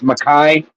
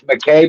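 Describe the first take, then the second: First: The name is said the traditional Scottish way. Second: The name is said the Americanized way. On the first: This is the original way the family name sounds. "If we're supposed to pronounce it correctly, it's Mackay" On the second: This is how the name sounds after being adapted in America. "because it's spelling and Americanizing it, it's McKay"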